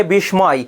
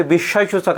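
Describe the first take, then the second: First: বিস্ময় said with the m sounded, "bish-moy"; common mispronunciation. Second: বিস্ময়সূচক with silent m, "bish-shoy-shuchok"; corrected pronunciation. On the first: Teacher showing students how many people say it, বিস্ময় mispronounced as "bish-moy". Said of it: "অনেকে উচ্চারণ করে বিস্ময়". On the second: Teacher correcting students' pronunciation, বিস্ময়সূচক said as "bish-shoy-shuchok". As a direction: drop the m in বিস্ময়সূচক, doubling the sh. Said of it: "সেটা হবে বিস্ময়সূচক". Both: Shown as a demonstration.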